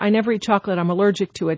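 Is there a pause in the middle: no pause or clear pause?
no pause. The two clauses run together without a pause. The two sentences are joined with no break. The speaker calls it wrong. "doesn't even sound right"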